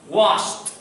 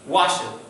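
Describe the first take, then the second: First: The ending is a short 't' sound. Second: The ending is an extra 'id' syllable. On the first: The speaker calls it right. "You have to make the sound like the T" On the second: The speaker calls it wrong. "That is incorrect. That is a terrible pronunciation"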